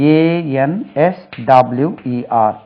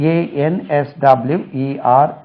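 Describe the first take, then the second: No difference in how they are said.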